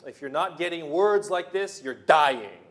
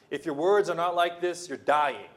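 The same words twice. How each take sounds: First: Much louder, punched warning; preacher's shout. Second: Loud preacher's warning; firm warning. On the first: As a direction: hammer it home with full force. Repeated warning, stronger take. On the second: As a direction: declare it firmly. Repeated warning, first take. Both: Acted.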